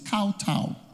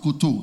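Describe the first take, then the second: First: The first syllable sounds like 'cow'. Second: The first syllable sounds like 'co'. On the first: The speaker calls it right. "it's kowtow" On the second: The speaker calls it wrong. "But it's not koto"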